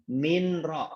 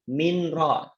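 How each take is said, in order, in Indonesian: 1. Bunyi n dibaca jelas sebelum r. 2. Bunyi n dibaca jelas sebelum r.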